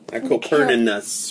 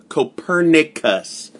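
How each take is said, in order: First: The word has an extra n sound. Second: The word has a single n sound. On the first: The speaker calls it wrong. "Where's another N?" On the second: The speaker calls it right. "There's only one N"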